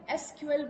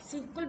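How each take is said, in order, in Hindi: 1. इसे अक्षर-अक्षर करके बोला जाता है। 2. यह एक शब्द की तरह बोला जाता है। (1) "एसक्यूएल भी कह सकते हो" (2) "सीक्वल भी कह सकते हो"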